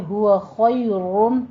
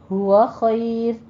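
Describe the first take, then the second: First: ہوا خیرون with a full, rounded "roon"; ہوا خیرون recited joined, the ر full-mouthed; heavy joined را. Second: ہوا خیر slow, ending on a thin ر; ہوا خیر recited with the final ر thinned; light را at pause. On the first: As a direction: carry خیرون through with a thick ر. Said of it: "آپ نے را مفخم ہی رکھنی ہے". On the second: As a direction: stop on a light ر in خیر after a heavy خ. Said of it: "را باریک ہو جائے گی وقف کی صورت میں". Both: Shown as a demonstration.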